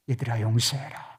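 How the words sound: It is said in a soft, gentle tone.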